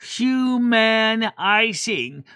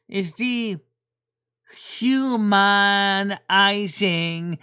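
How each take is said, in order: First: "Humanizing" slow, each syllable punched and a bit louder; "Humanizing" very slowly, syllable by syllable; syllables accented. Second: "dehumanizing" drawn out very slowly, each syllable hit; "dehumanizing" stretched with every syllable stressed; syllables accented. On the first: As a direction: stamp every syllable of "Humanizing". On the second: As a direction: spell out "dehumanizing" syllable by syllable, very slow. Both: Shown as a demonstration. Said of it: "when I accent the word syllables".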